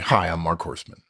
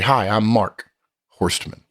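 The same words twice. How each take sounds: First: First and last name run together without a break. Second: Mark is stressed, then a pause before Horstman.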